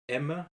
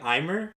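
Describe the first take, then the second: First: The name is pronounced like 'Emma'. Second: The name is pronounced like 'Aimer'. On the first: The speaker calls it right. "apparently the pronunciation is [name]" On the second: The speaker calls it wrong. "I like saying Aimer"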